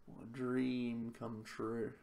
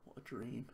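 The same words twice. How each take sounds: First: Slow, deadpan sarcastic drawl. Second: Said in the usual way. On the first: Real, not acted. Player mocking his terrible draw, slow and deadpan sarcastic. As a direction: stretch it out, dripping sarcasm.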